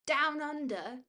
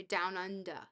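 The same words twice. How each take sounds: First: Higher, questioning Aussie "Down under"; Australian accent. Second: Said in the usual way. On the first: Acted. Streamer tries a viewer's phrase, questioning Australian accent. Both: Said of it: "accent is Bonzo, we say down under".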